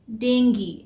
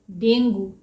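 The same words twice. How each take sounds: First: डेंगी ending in "gee"; डेंगी said "deng-gee"; डेंगी with a short final "ee"; correct dengue. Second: डेंगू ending in "goo"; डेंगू the way all India says it; डेंगू with a final "oo"; wrong dengue. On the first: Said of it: "इसका सही pronunciation है डेंगी". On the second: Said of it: "लेकिन इसे डेंगू नहीं कहते हैं". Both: Shown as a demonstration.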